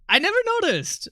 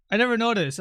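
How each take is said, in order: First: Squeaky high-pitched voice; high mock voice. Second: Said in the usual way. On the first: High mock line after laugh.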